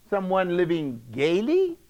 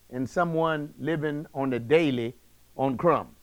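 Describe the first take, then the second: First: "gaily" drawn up into a rise; rising on gaily. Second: Low, falling "daily", then "crumbs" lower still. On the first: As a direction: lift the end of "gaily", leaving it hanging. Contrasting rich man with poor man. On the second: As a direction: drop "daily" and "crumbs" low to set the contrast. Contrasting poor man with rich man. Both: Shown as a demonstration.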